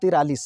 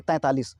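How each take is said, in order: First: तिरालीस as ti-raa-lees; ti-raa replacing tain-taa in तिरालीस; mistaught forty-three. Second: तैंतालीस as tain-taa-lees; nasal tain opening तैंतालीस; correct forty-three. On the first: Retold or imitated. Teacher quoting what teachers wrongly teach, तिरालीस as ti-raa-lees. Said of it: "यहाँ गलती से तमाम teachers". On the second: Shown as a demonstration. Teacher giving the proper Hindi numeral, तैंतालीस as tain-taa-lees. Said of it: "उसका उच्चारण होना चाहिए".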